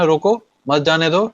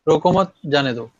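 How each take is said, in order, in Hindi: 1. विराम roko के ठीक बाद आता है। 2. विराम mat के ठीक बाद आता है।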